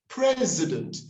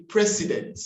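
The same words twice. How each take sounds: First: President with a Z, pitched high; corrected pronunciation. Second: President with an S sound and full vowels; common mispronunciation. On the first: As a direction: model president as PREZ-uh-dunt. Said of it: "That S will turn into a Z". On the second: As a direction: say president as PRE-si-dent. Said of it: "we say". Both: Shown as a demonstration.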